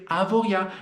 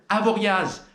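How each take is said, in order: First: The final z sound is silent. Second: The final z sound is pronounced. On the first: The speaker calls it right. "On ne prononce pas le Z" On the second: The speaker calls it wrong. "Mais non, c'est faux"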